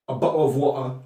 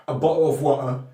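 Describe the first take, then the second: Both takes have the same delivery.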